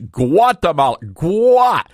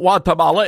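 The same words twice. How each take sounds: First: The word starts with a clear hard G sound. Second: The word starts without a hard G sound. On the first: The speaker calls it right. "you have to enunciate the G" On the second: The speaker calls it wrong. "the G is silent"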